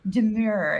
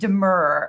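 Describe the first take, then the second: First: The second syllable rhymes with 'pure'. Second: The second syllable rhymes with 'fur'. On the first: The speaker calls it wrong. "I got roasted for for a little while for pronouncing it like demure" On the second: The speaker calls it right. "instead of demur"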